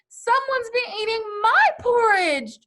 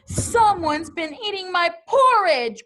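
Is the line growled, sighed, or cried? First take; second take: sighed; growled. First: It is sighed in Mama Bear's voice. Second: It is growled in Papa Bear's voice.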